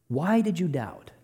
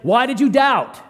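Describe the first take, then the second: First: It is said in a gentle, caring tone. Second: It is said in a harsh, condemning tone.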